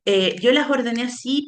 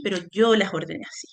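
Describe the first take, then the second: First: Said in the usual way. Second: Yo pushed as the key word; stress on yo. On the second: Shown as a demonstration. Teacher clarifying to students: yo stressed. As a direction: lean on yo, I did it, not the text.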